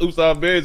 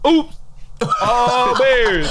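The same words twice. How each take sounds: First: The phrase is said straight through without a pause. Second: The phrase is said with a pause inside it. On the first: The speaker calls it wrong. "It's not just Oops All Berries" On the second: The speaker calls it right. "You gotta say that hoe with a pause in it"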